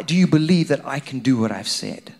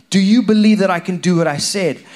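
First: Said in the usual way. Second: Preacher raising the question with force; louder, pressing repeat. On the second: Acted. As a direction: Do you believe pushed up and louder.

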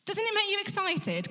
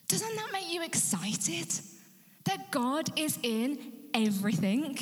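First: Much higher, urgent excited call; preacher's high excited appeal. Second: Rising eager appeal; excited question. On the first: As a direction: fire them up with a high rising plea. Repeated question much higher. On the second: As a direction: coax the congregation, higher. Preacher asks congregation, rising. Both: Real, not acted.

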